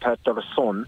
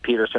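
First: The name is said with a Swedish pronunciation. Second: The name is said with a North American pronunciation. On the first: This is the name as said in its home country. "if you're Swedish, it's Elias Pettersson" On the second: This is the name adapted to North America. "it could be Peterson over here"

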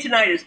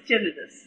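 First: The stress is on the second syllable. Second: The stress is on the first syllable. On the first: The speaker calls it wrong. "I always say tinnitus" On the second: The speaker calls it right. "but it is tinnitus"

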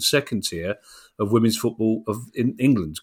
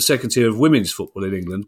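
First: The stress falls on England. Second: The stress falls on women's football. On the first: The speaker calls it wrong. "rather than England" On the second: The speaker calls it right. "I should have put the stress on women's football there"

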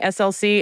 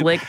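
First: It is spelled out as three separate letters. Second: It is said as the single word slick. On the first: "All this time I've been saying SLC" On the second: "saying it's Slick"

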